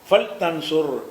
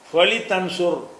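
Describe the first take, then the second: First: The l is closed with no vowel after it. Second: The l is followed by a short vowel. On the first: The speaker calls it right. "லாமுக்கு சுக்குன் ஆக்கிருந்தேன்" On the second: The speaker calls it wrong. "என்று சொல்லாம"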